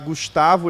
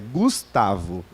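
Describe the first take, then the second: First: Said in the speaker's own non-southern regional accent. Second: Said in a southern Brazilian gaúcho accent. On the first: The speaker calls it wrong. "eu vou falar Gustavo" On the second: The speaker calls it right. "não é Gustavo, é Gustavo"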